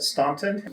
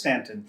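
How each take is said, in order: First: It is pronounced the New England way. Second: It is pronounced the local way. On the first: An outsider's reading of the name. The speaker calls it wrong. "I said Staunton and was corrected right away" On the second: The name as locals say it. The speaker calls it right. "corrected right away that it was Stanton"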